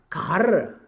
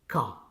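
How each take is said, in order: First: The R after the vowel is pronounced. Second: The R after the vowel is silent. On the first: The speaker calls it wrong. "producing the sound raw even after the vowel sound" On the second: The speaker calls it right. "You can simply say ka"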